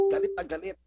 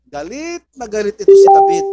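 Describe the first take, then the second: First: Said in the usual way. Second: High, loud burst of anger; preacher erupting with David's rage; furious outburst. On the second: Acted. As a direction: shout it as if enraged yourself. Preacher stresses David's fury.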